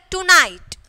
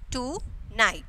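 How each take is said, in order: First: Said in the usual way. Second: "tonight" softer, as two separate beats; split into syllables. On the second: Shown as a demonstration. Teacher counting two syllables, "tonight" broken in two. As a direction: pause between "to" and "night" in "tonight". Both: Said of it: "two syllables is there".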